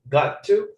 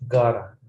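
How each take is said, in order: First: Both words are said fully and separately. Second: The words are blended into one short form.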